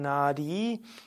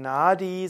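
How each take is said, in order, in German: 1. Die Vokale sind lang, mit einem retroflexen D. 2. Die Vokale sind kurz, mit einem normalen D. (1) "Das A ist lang und das I ist lang" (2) "würde man nicht sagen"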